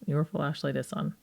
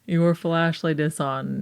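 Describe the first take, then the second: First: It is said fast. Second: It is said slowly.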